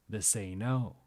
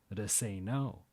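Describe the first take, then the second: The two takes are said the same way.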